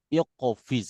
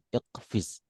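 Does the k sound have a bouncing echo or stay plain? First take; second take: bouncing; plain. First: The k sound is released with an echoing bounce. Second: The k sound is plain without any bounce. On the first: This is the strict Quran recitation style. "Kalau Quran harus iqo, iqofiz harus gitu" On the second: This is ordinary Arabic outside the Quran. "Kalau bukan Quran iqfiz, nggak nggak begitu ketat"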